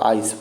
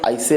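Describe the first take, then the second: First: The word ends on the s sound. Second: An extra vowel is sounded after the s. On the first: The speaker calls it right. "और आइस बोलते हैं" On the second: The speaker calls it wrong. "आइसे नहीं कहते हैं"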